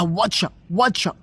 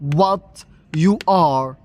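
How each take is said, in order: First: The words blur together into one short word. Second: Each word is said separately and in full. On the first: "ليه قالها واتشا واتشا؟" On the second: "what you're اللي هي what you are"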